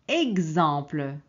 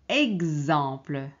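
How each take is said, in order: The two takes are said the same way.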